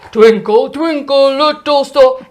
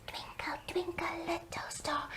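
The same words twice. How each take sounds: First: Sung, loud fatherly sing-song; Daddy singing. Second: Put-on tiny whispered baby voice; soft whispered little one. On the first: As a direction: sing it out big like a dad. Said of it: "like Daddy would". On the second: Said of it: "like Baby would". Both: Shown as a demonstration.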